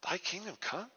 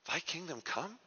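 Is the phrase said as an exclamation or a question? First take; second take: question; question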